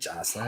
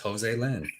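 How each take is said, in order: First: The name is said as Jocelyn. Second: The name is said as Jose Lynn. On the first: The speaker calls it wrong. "It ain't Jocelyn" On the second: The speaker calls it right. "It's Jose Lynn"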